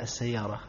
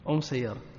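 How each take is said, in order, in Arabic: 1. تُنطق أداة التعريف بصوت اللام، al. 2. تُنطق أداة التعريف بصوت الميم، am. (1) "لا يقولون مثلا السيارة" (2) "لغة حمير إبدال لام الميمة"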